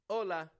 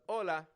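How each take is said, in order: No difference in how they are said.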